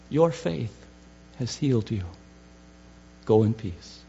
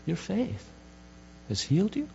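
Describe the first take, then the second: First: Said in the usual way. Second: "faith" and "you" lifted into a rising question; questioning echo. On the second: Shown as a demonstration. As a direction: repeat "Your faith has healed you?" as if puzzling over it. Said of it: "Now that's shorthand".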